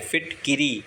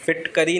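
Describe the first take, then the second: First: The middle vowel is a short 'i' sound. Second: The middle vowel is a short 'a' sound. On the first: The speaker calls it right. "फिटकिरी सही शब्द है" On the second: The speaker calls it wrong. "फिटकरी नहीं होता"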